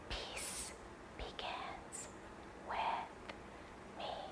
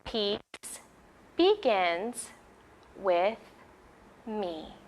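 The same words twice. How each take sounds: First: It is spoken in a whisper. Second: It is spoken in a normal voice.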